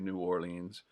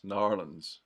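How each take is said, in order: First: The name is said with every syllable clearly. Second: The name is squeezed into two quick syllables. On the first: This is how most people elsewhere say it. "most Americans would say New Orleans" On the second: This is how local people say it. "in New Orleans they don't call it New Orleans. It's Narlands"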